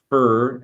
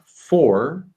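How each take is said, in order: First: The word has a weak, reduced vowel. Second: The word has a full, clear vowel. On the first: "when they're not stressed, they become for" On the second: "words like for"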